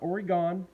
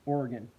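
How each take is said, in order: First: It is said the way East Coast speakers say it. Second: It is said the way local speakers say it. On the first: The speaker calls it wrong. "Not Oregon" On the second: The speaker calls it right. "it's pronounced Oregon"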